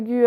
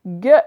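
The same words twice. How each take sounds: First: "gue" split in two, with the u sounded as "gu-e"; wrongly voiced u. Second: "Gue" as one syllable, hard g, silent u; correct hard "gue". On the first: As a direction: pronounce the u in "gue", making "gü-eu". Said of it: "non pas gue". (« gue » mal lu, en prononçant le u : « gu-e ») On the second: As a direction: say "Gue" like the end of "langue". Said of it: "et non pas gue". (« Gue » en une syllabe, comme dans langue) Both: Shown as a demonstration.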